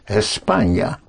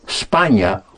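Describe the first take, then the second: First: The word starts with an e vowel before s. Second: The word starts directly with an s sound. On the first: The speaker calls it right. "but España" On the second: The speaker calls it wrong. "Spain is not España"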